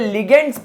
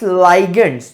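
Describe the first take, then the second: First: The first vowel is a short 'ih' sound. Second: The first vowel is a long 'eye' sound. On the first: This is the speaker's own homegrown way of saying it. "मुझे इसे लिगेंड्स pronounce करने में बड़ा मजा आता है" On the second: This is the English-style way others insist on. "मुझे कुछ लोगों ने कहा कि इट्स लाइगेंड्स"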